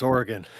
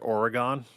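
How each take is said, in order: First: It is said the way locals say it. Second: It is said the way East Coasters say it. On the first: The speaker calls it right. "no, it's Oregon" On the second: The speaker calls it wrong. "Most people on the East Coast call it Oregon"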